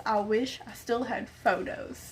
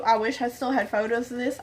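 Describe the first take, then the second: First: "wish" leaned on, softly and deliberately; soft, measured stress on "wish"; emphatic regret. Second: Said in the usual way. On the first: Real, not acted. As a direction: lean on "wish", keep the rest hushed.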